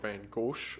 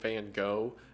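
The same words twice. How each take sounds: First: The name is said with a non-American pronunciation. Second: The name is said with an American pronunciation. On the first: The speaker calls it right. "the correct pronunciation for it is Van Gogh" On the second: The speaker calls it wrong. "while I'm calling him Van Gogh"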